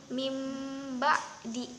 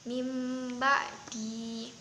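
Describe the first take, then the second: Both takes have the same delivery.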